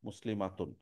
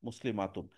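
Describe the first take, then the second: No difference in how they are said.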